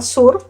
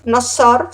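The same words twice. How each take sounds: First: Surf said with a clear u, surf. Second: Surf said as sor, the wrong form. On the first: Teacher settling on the right surf. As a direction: say surf with a pure u. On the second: Teacher showing students the wrong surf. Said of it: "sino surf". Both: Shown as a demonstration.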